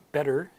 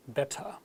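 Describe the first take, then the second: First: Better with a quick D-like T and final R; American flap T. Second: Better with a crisp T, no final R; British clear T. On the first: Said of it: "better in American English". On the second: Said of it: "said clearly". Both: Shown as a demonstration.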